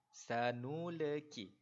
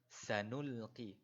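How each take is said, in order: First: The L is bounced with an added vowel. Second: The L is held still with no vowel. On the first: The speaker calls it wrong. "Kadang-kadang ada yang terbaca sanuleki" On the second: The speaker calls it right. "Jadi bacaan yang betul ialah sanulqi"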